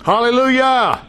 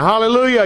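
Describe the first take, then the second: First: High, long drawn-out praise shout; rousing hallelujah. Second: Quicker, high-pitched praise cry; a brisk, raised Hallelujah to stir them up; excited hallelujah. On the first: Real, not acted. Preacher cheers the verses just read to the congregation, exultant. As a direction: stretch out a high, jubilant Hallelujah. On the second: Shown as a demonstration. Preacher prompts an unexcited congregation to try again, rousing. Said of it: "Y'all don't seem very excited".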